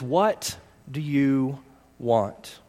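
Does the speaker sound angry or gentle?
gentle. It is asked gently, as a sincere question.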